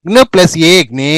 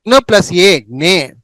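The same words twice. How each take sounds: First: జ్ఞే with a drawn-out e; long vowel. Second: జ్ఞే with a short e; short vowel. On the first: Teacher drilling the rare జ్ఞ series, long vowel. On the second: Teacher drilling the rare జ్ఞ series, short vowel. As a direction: keep ఏ brief in జ్ఞే. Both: Shown as a demonstration. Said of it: "డెబ్బై ఎనిమిదో పేజీలో జ్ఞ".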